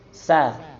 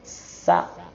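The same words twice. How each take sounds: First: The s sound flows briefly and naturally. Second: The s sound is stretched far too long. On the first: The speaker calls it right. "Sewajarnya aja, alamiah" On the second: The speaker calls it wrong. "Ada yang berlebihan. Kelamaan"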